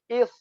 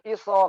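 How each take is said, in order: First: It ends cleanly on the consonant. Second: An extra vowel follows the final consonant. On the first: The speaker calls it right. "Tapi is. Karena hamzah, apa? Sadnya kan disukunkan" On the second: The speaker calls it wrong. "Bukan iso"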